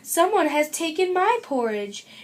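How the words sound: It is said in a medium-sized voice.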